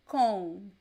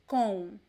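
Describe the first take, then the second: First: It ends in a nasal vowel, lips apart. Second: The same.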